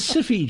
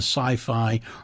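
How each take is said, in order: First: The name is said like 'siffy'. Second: The name is said like 'sigh-fye'.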